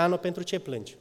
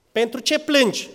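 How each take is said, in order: First: Said in the usual way. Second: Higher, louder pleading question; pleading repeat. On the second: Retold or imitated. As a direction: press the husband's question with feeling. Husband's question repeated, raised. (întrebare rugătoare, mai sus și mai tare)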